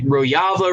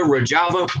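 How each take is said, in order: First: Mocking the way lefties want "Rojava" to sound; mock pronunciation. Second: "Rojava" with a hard j, said as "ro-JAH-va"; plain "Rojava" with a j as in jam; plain pronunciation. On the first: Mocking lefties, "Rojava" said as "ro-YAH-va". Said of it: "they wanna sound". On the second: Retold or imitated. Correcting the lefties' "Rojava" to "ro-JAH-va". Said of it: "Who gives a fuck how it's said?".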